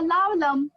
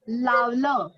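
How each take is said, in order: First: The word ends with a clear m sound. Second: The word ends on a vowel, with no m sound. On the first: It follows the Hindi and Sanskrit reading. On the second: It follows the Marathi reading.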